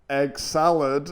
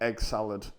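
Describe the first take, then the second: First: It is said in a mocking, self-undercutting tone. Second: It is said plainly, with a straight delivery. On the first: The speaker does not trust the joke. The speaker calls it wrong. "taking the piss out of my own jokes with the way I was delivering them" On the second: The joke is trusted to land. The speaker calls it right. "Instead of just being like"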